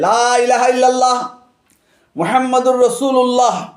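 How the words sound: There is a pause after 'illallah'. Allah and Muhammad are two separate beings. "বিরাম চিহ্ন দিয়ে লা ওয়াকফ করে"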